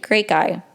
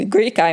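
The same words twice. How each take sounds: First: Said in the usual way. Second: Laughing. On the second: Real, not acted.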